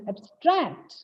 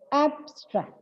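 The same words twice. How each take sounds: First: The stress is on the second syllable. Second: The stress is on the first syllable. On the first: The word is used as a verb. "When the word is used as a verb, it becomes abstract" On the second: The word is used as a noun or adjective. "the stress is on the first syllable"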